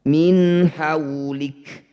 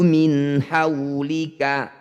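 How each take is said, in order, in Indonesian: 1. Kata ini diakhiri dengan bunyi k yang berdesah. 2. Kata ini diakhiri dengan vokal a.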